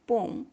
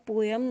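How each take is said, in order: First: The word sounds like 'pome' without a y-glide. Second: The word sounds like 'poyam' with a y-glide. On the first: The speaker calls it right. "इसको बोलते हैं पोम" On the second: The speaker calls it wrong. "पोयम नहीं बोलेंगे"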